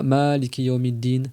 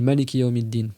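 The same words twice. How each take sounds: First: The first vowel of maliki is long. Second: The first vowel of maliki is short. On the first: The speaker calls it wrong. "tu dis pas" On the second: The speaker calls it right. "Tu comptes pas le alif"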